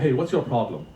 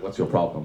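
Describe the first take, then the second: First: It is asked in a friendly, helpful tone. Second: It is asked in a hostile, confrontational tone.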